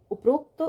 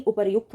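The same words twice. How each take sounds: First: उपरोक्त said as "up-rokt", pitched up; wrong o form. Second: उपर्युक्त said as "upar-yukt"; correct pronunciation. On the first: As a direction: put a long o after the r in उपरोक्त. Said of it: "नहीं, उपर्युक्त होता है". (उपरोक्त में "रो" बोलें) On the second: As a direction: sound r then "yukt" in उपर्युक्त. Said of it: "इसका सही उच्चारण". (उपर्युक्त में "युक्त" साफ़) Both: Shown as a demonstration.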